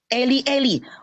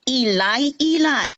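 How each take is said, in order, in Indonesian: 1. Kata ini dimulai dengan bunyi 'e'. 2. Kata ini dimulai dengan bunyi 'i'. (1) "L A I mengatakan di dalam Bible-nya" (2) "Anda ikut King James Version, bacanya Ilai Ilai"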